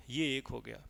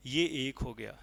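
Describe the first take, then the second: No difference in how they are said.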